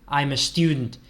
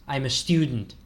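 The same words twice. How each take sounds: Both takes have the same delivery.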